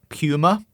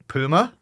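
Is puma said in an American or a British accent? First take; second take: British; American. First: It is said in a British accent. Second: It is said in an American accent.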